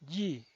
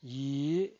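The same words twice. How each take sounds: First: The pitch falls from high to low. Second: The pitch rises from mid to high. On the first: "El cuarto tono es un tono bajado" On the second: "El segundo tono es ascendiente"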